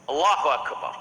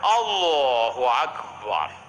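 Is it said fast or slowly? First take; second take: fast; slowly. First: It is said quickly and briskly. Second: It is said slowly and drawn out.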